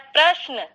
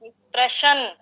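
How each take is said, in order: First: प्रश्न with a short श and a full न; the correct "prashna" with a full न sound; correct pronunciation. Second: प्रश्न with a long श and a clipped final न; the careless "prashən" with a drawn-out श; wrong pronunciation. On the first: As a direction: say प्रश्न as "prashna", giving the final न its full length. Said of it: "जबकि है प्रश्न". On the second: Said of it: "last में पूरा बोल दे रहे हैं". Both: Shown as a demonstration.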